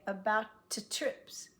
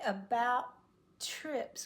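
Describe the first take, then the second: First: The T in about is released with an extra vowel. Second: The T in about is stopped, no vowel after. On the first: The speaker calls it wrong. "we don't want to say" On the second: The speaker calls it right. "there's no ta in between"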